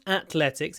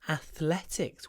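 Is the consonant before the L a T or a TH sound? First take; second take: T; TH. First: The consonant before the L is a plain T. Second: The consonant before the L is a TH. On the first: The speaker calls it wrong. "It's not athletics" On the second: The speaker calls it right. "it's athletics with a th"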